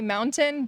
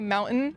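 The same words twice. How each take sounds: First: The middle t is a clear t. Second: The middle t is a glottal stop. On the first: "But you can say mountain" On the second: "We have like the glottal stop in the throat"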